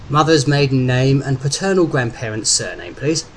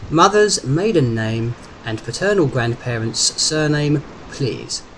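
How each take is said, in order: First: Operator's routine security question; brisk official request. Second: Slow, measured official question, dropping on "please"; deliberate repeat. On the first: Phone operator checking Derek's identity, brisk and official. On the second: Phone operator to confused Derek, slow and insistent. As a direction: repeat it slowly, word by word. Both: A narrator's reading.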